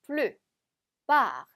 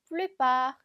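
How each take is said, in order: First: "plupart" in two parts, "plu", pause, "part"; split into syllables. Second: "plupart" as one word, no pause; joined up. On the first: Teacher cuts "plupart" up for learners, syllable by syllable. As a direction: break "plupart" after "plu". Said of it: "이렇게 나누어서 읽은". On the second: Teacher reads "plupart" joined up after dividing it. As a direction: link "plu" and "part" smoothly together. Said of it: "붙여서". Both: Shown as a demonstration.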